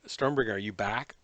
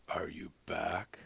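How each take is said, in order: First: Said in the usual way. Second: Whispering. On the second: Real, not acted. Whispered repeat to teammate.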